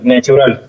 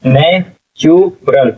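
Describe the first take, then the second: First: Said in the usual way. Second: natural very slowly as ने, चु, रल; syllable by syllable. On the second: Shown as a demonstration. Teacher sounding out natural for students, slow syllables. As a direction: break natural into parts with clear pauses. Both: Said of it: "क्या हो जाएगा".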